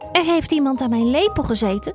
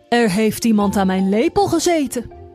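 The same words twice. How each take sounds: First: The voice is small and high. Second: The voice is very deep and heavy. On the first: The smallest character is speaking. "zei met een klein stemmetje" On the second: The biggest character is speaking. "zei met een zware stem"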